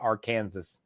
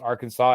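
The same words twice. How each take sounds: First: The ending sounds like the word Kansas. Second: The ending does not sound like Kansas. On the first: The speaker calls it wrong. "and not Arkansas" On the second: The speaker calls it right. "is pronounced Arkansas"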